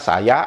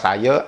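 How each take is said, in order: First: The final vowel is an open 'ah' sound. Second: The final vowel is a reduced 'uh' sound. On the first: This is how East Malaysians say it. "Karena mereka mengucapkan seperti apa yang tertulis" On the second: This is how Peninsular Malaysians say it. "Mereka tidak ada ngomong"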